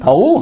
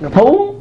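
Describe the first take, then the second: First: The pitch dips down and then rises. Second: The pitch starts high and rises sharply. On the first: "hỏi" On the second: "dấu sắc"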